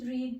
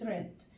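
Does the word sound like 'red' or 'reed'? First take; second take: reed; red. First: The vowel is long, like 'reed'. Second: The vowel is short, like 'red'. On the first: The speaker calls it wrong. "مش بتبقى read read" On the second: The speaker calls it right. "كأني بنطق اللون الأحمر"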